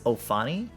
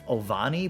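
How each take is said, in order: First: The middle consonant is an F sound. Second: The middle consonant is a V sound. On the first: The speaker calls it right. "but it's Ofani" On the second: The speaker calls it wrong. "I pronounce it wrong. I say"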